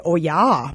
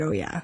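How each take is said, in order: First: Long rounded Wisconsin "Oh, yeah"; drawn-out Upper Midwest "Oh, yeah"; Wisconsin accent. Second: Said in the usual way. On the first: Shown as a demonstration. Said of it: "if you're from Wisconsin, you say". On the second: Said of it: "But I said".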